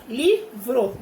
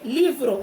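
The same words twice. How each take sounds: First: "livro" split slowly into li, vro; syllable by syllable. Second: Said in the usual way. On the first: Shown as a demonstration. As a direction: say "livro" as two distinct beats. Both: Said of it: "duas sílabas".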